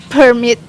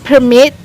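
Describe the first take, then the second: Both takes have the same delivery.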